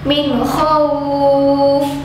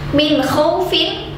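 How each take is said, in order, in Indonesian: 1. Frasa ini berakhir tanpa bunyi 'in' di akhir. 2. Frasa ini berakhir dengan bunyi 'in' di akhir. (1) "ketika wakaf dibaca min khauf" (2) "kalimat paling atas min khaufin"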